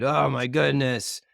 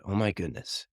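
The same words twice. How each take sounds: First: Higher, drawn-out mock exasperation; imitated frustration. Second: Soft, imitated hushed amazement; quiet marvelling. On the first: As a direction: drag it out as if fed up with them. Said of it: "angry tearing down and frustrated". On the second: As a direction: marvel softly at what just happened. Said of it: "they marveled".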